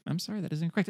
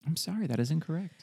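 First: Mock host rejecting the answer again; game show buzzer voice. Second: Mock host rejecting the answer; game show buzzer voice. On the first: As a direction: play the quiz host. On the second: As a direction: deliver it like a quiz host.

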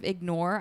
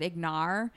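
First: Said in the usual way. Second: "ignore" with the last vowel widened to "nar"; mispronounced ignore. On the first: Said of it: "instead of ignore". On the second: Retold or imitated. Podcaster owns up to her slip, saying "ignore" as "ig-nar". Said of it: "I said ignore".

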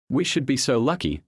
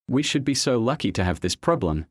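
First: A short, mildly snapped retort; lightly snapped gruff retort. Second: A pleased, lightly gruff reply; mildly gruff, content retort. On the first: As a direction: snap it back, a touch gruff. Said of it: "the gruff voice snapped". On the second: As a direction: say it glad of the options, a touch gruff. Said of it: "the gruff voice replied". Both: A narrator's reading.

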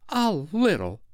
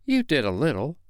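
First: High, offended echo; affronted, pitched-up disdain; haughty. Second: Higher-pitched, offhand concession; lightly dismissive and self-absorbed; careless. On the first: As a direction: repeat it with hauteur. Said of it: "she replied with hauteur". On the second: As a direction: toss it off carelessly. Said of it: "Peter said carelessly". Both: A narrator's reading.

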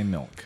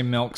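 First: "milk" in the other vowel variant; softer second take of "milk". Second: "milk" in one of two vowel variants; first take of "milk". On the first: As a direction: say "milk" lower, as the other side. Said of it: "some say milk". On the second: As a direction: say "milk" as one side of the contrast. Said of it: "Some say milk". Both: Shown as a demonstration.

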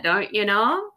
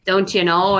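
First: Lightly mocked Minnesota lilt, rising; Minnesota accent. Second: Put-on a touch of Minnesota accent, louder; Minnesota saying. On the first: Admitting Minnesotans say it, in a light Minnesota accent. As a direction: own the Minnesota phrase with a grin. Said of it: "We do totally say that". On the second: Quoting a Minnesota joke in a light Minnesota accent. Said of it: "it made some jokes about being Minnesotan".

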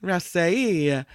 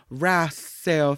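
First: Wrassei said Italian-style with a sounded final ee; added E ending. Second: Wrasseo drawn out, ending in an oh sound; attempted pronunciation. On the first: Host corrected on the fish name, Wrassei with E added. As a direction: stretch the end of Wrassei into "ay-ee". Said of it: "She added the E at the end". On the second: Host trying to recall Heather's version, Wrasseo said slowly. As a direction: say Wrasseo slowly, adding a vowel after "rass". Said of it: "what did Heather say?". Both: Shown as a demonstration.

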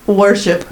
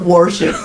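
First: WORSHIP said carefully in the standard way; correct pronunciation of worship. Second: WORSHIP said in the country way being rejected; mocked pronunciation of worship. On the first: Correcting the co-host's word, careful WORSHIP. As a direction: say "worship" cleanly as "wur-ship". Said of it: "not worship". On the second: Mocking how co-host says it, country WORSHIP. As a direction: say "worship" as the mistaken country version. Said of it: "And it's worship". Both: Shown as a demonstration.

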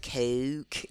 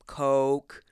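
First: COKE with an odd, stretched o; softer mock coke, vowel shifted; imitated coke. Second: COKE with a plain long o; coke, ordinary round o; own usual coke. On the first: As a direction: mimic someone's accented coke. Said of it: "and you're like". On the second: Shown as a demonstration. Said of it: "I have this way of pronouncing things".

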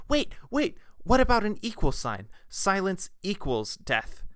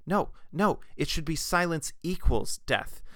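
First: Much higher and louder, then slowing down to land "Silence equals death"; retold eureka shout, much higher and slowed at the end; excited shout. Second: Eager, quick correction, a touch higher; a hint of an excited interruption; mild blurted correction. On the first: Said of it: "who shouted that out". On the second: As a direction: blurt it out, correcting the last idea. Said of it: "blurted out".

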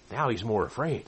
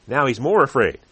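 First: Said in the usual way. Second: "more" pushed louder and falling; stress on more. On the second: Shown as a demonstration. Preacher to congregation, stressing "more" loudly. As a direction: lean hard on "more".

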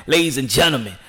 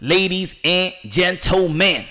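First: Said in the usual way. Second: Slow announcer call. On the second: Shown as a demonstration.

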